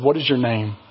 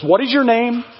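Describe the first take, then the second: First: It is said in a normal, calm voice. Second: It is said in a loud, stern voice.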